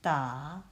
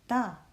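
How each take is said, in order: First: The pitch dips low and then rises. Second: The pitch falls sharply from high to low. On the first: "The third one is a turning tone" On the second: "The fourth one is a going down tone"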